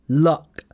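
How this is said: It is said with an RP vowel. "the R P pronunciation is lucky and luck with the uh"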